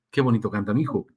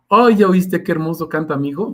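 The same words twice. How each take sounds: First: Tender parent. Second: Put-on gushing, higher and louder, bragging about the child; proud parent. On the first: Retold or imitated. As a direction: murmur it like a doting parent. Parent softly praising child. (papá tierno, suave y más grave) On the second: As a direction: show off your kid's singing to everyone. Proud parent praising singing child. (padre orgulloso presumiendo, más agudo y fuerte)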